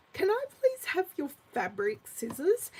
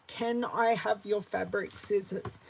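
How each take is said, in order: First: Lightly voiced son asking politely, rising at the end; a hint of a teenager asking nicely; polite teen son. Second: Said in the usual way. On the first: Mum imitating her son's polite request, lightly voiced. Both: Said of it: "he asked me just like that".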